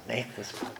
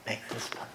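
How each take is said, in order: First: Much softer repeat of "make this putt"; quiet pleading. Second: "make this putt" breathed out as a whisper; whispered prayer. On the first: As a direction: murmur "make this putt", fading. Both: Retold or imitated. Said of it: "I got quiet and I'm praying".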